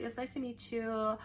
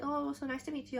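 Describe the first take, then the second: First: Said in the usual way. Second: A light, sweet imitation of the idol's greeting, a bit higher; lightly voiced idol, friendly and bright. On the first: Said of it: "I was like". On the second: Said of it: "she's like".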